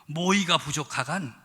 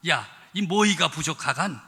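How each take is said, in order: First: "모이가 부족하간" said first with a plain falling Pyongan question; a Pyongan "부족하간", falling at the end; Pyongan dialect. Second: "모이가 부족하간" said again with a leading "야", louder and emphatic; a Pyongan "부족하간" pressed harder the second time; Pyongan dialect. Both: Retold or imitated. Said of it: "평안도 버전은 어떻게 됐나?".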